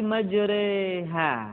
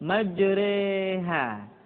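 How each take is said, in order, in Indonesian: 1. Vokal setelah r dimiringkan ke arah e. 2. Vokal setelah r dimiringkan ke arah e.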